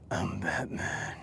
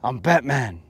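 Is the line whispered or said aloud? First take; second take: whispered; aloud. First: It is whispered in a creepy voice. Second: It is said aloud in a normal voice.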